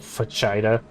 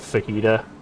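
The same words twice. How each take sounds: First: The word is given a literal, anglicized pronunciation. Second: The word is given its standard Spanish-style pronunciation. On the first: The speaker calls it wrong. "As long as they don't say, "Oh, fajita"" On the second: The speaker calls it right. "instead of fajita"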